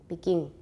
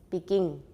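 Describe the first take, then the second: No difference in how they are said.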